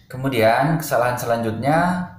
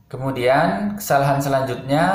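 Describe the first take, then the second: No difference in how they are said.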